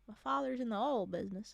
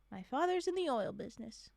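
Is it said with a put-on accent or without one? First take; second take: with accent; without. First: It is said with a put-on regional accent. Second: It is said without any put-on accent.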